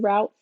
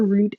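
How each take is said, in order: First: "route" rhyming with "out"; "route" with an OW vowel. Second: "route" rhyming with "boot"; "route" with a long OO vowel; route like "root". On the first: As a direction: say "route" as "rowt". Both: Shown as a demonstration. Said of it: "as some people may say".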